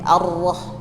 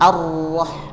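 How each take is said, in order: Both takes have the same delivery.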